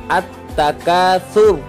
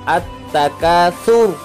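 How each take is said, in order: The two takes are said the same way.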